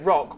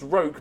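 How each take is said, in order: First: The vowel is a short 'o' sound. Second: The vowel is a long 'oh' sound. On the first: The speaker calls it wrong. "if I pronounced it rock" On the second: The speaker calls it right. "it is pronounced roke"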